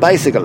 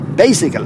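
First: It is said in a south Monaghan accent. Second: It is said in a north Monaghan accent. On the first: "where we live in South County Monaghan, an appliance with 2 wheels is called a bicycle" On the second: "down to Monaghan town, ... they say bicycle"

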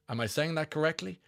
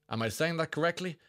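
The two takes are said the same way.

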